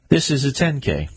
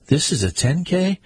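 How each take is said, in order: First: A patient correction pressing "This" above the rest; firm correction. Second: "This is a ten K?" pitched high and rising on "K" in disbelief; higher, dismayed disbelief at a ten K; incredulous question. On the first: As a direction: stress on "This", falling firmly on "ten K". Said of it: "not a five K". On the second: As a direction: ask it as if you can't believe the distance. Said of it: "he asked". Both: Acted.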